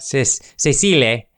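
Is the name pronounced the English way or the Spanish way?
Spanish. The name is said with a Spanish pronunciation. "Part of me wants to pronounce it like Spanish"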